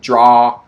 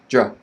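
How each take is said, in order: First: The syllable is long and stressed. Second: The syllable is short and unstressed. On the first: "Stress on the first syllable" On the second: "the beginning is quick"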